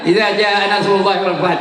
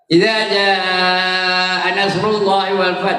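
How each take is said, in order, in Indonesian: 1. Vokal panjang dipotong pendek. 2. Vokal panjang dibaca dengan panjang penuh. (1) "Korang harkatnya" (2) "betul lima rakaat tu"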